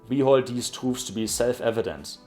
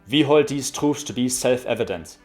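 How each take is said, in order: First: A soft German accent with gentle word endings. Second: A hard German accent with crisp word endings. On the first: "once in a softer German accent" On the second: "once in a harder German accent"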